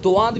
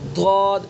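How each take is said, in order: First: It begins with a plain d sound. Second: It begins with an emphatic side-tongue d sound. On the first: The speaker calls it wrong. "दुआद भी गलत है" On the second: The speaker calls it right. "ज़बान की बाईं करवट बाईं दाढ़ों पर लगाएंगे और अदा करेंगे"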